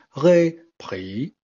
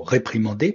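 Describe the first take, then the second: First: RÉPRIMANDER syllable by syllable, each on its own tone; Chinese tones. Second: Said in the usual way. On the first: Shown as a demonstration. Teacher playfully applies Chinese tones to réprimander, syllable by syllable. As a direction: split "réprimander" into separate high, rising, dipping and falling syllables. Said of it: "appliquer cette façon de prononcer au mot réprimander". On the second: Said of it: "Si je voulais m'amuser à appliquer cette façon".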